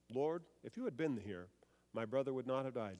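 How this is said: It is said calmly, in control.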